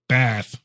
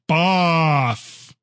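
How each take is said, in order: First: The A vowel is said short. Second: The A vowel is said long. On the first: This is the northern way of saying it. "if you go to the north, don't do the long A. So say it again" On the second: This is the southern way of saying it. "That's how you say Bath"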